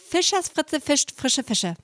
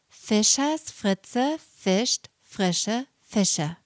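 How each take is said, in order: First: The phrase is spoken fast. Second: The phrase is spoken very slowly. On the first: "Noch schneller" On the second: "Nochmal ganz langsam"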